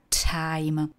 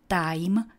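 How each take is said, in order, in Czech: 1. Hlásku t říkáme s přídechem. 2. Hlásku t říkáme bez přídechu. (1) "ale time" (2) "Jako neříkáme čas. Time"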